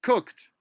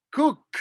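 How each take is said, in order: First: "cooked" run together quickly in one beat; said faster. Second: "Cooked" said slowly, each sound clear, high pitched; slow careful pronunciation. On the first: Teacher contrasts fast "cooked" with the slow take. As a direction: snap "cooked" out at normal speed. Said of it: "When you say it faster". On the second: Teacher models "Cooked" slowly for the class to copy. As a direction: draw out "Cooked" so all three sounds ring. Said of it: "I'll pronounce that one again slowly". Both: Shown as a demonstration.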